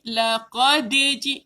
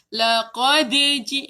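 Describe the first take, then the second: The two takes are said the same way.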